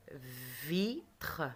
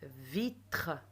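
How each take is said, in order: First: "Vitre" drawn out, vi held, then a gap before tre; "Vitre" broken slowly in two for pupils; slow syllable split. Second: "Vitre" in two beats, vi and tre; "Vitre" modelled syllable by syllable. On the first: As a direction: stretch and separate "Vitre" into two beats. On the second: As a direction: sound out "Vitre" carefully. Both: Shown as a demonstration. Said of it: "je tape les syllabes".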